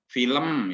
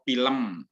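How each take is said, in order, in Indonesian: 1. Kata film diawali bunyi F. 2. Kata film diawali bunyi P. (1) "tidak bisa mengucapkan kata film" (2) "Selalu film atau film"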